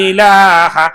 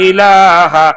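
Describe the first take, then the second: No difference in how they are said.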